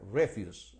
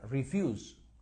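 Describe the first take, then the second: First: The stress is on the first syllable. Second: The stress is on the second syllable. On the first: It is a noun meaning garbage or waste. "Y se pronuncia refuse en ese caso" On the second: It is a verb meaning to decline or reject. "the stress is on the second syllable"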